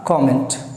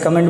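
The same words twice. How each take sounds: First: The first vowel is an open 'aw' sound. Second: The first vowel is a short 'uh' sound. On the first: The speaker calls it right. "इसका जो सही sound है it's called कमेंट" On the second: The speaker calls it wrong. "अगर आप इसे कमेंट बोलते हैं तो आप गलत बोलते हैं"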